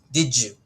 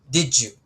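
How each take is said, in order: No difference in how they are said.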